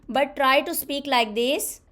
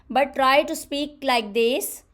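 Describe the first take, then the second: No difference in how they are said.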